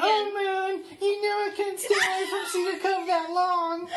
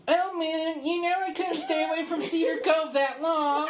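First: Thin, high pinched repeat. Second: Thin, pinched high voice. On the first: Shown as a demonstration. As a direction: squeeze it thin and high again. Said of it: "Do it again, do it again". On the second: Retold or imitated. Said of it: "says in this thin, pinched voice".

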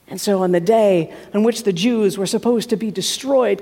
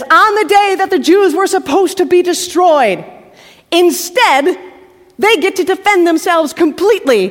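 First: Said in the usual way. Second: Higher, louder, rousing; rousing announcement of the reversal; triumphant. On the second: A narrator's reading. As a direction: proclaim the victory.

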